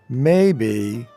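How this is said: It sounds doubtful, treating the idea as unlikely. The outcome is possible but seems very unlikely. "in that tone of voice, you are showing that while it is a possibility, you don't find it very likely"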